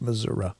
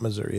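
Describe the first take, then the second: First: The word ends with an "uh" sound. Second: The word ends with an "ee" sound. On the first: The speaker calls it right. "it's Missouri ... if it's an uh" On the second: The speaker calls it wrong. "It's not Missouri"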